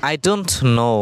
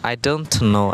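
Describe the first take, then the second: Both takes have the same delivery.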